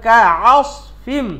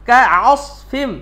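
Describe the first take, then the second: The two takes are said the same way.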